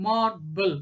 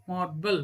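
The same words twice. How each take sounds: First: MAR - BLE in two beats; syllable by syllable. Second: Said in the usual way. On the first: Shown as a demonstration. Teacher showing a two syllable word, "Marble" split apart. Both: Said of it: "These are all called two syllabic".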